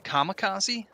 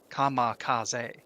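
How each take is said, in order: First: It is said with an English pronunciation. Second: It is said with a Japanese pronunciation. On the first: The speaker calls it wrong. "we we say kamikaze" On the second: The speaker calls it right. "They uh, say um, I, I might not get it perfect, but uh, kamikaze"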